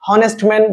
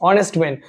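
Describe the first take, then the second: First: Honest with the H sounded, "honest" as HON-est; wrong pronunciation. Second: "honest" begun on the O, as ON-est; silent H. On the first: Teacher shows class the mistake, "honest" with audible h. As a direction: voice the h at the start of "honest". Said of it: "honest man বলবো না". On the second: Teacher corrects class, "honest" with silent h. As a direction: drop the h of "honest" entirely. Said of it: "এস থাকলে সেটা যদি silent থাকে". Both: Shown as a demonstration.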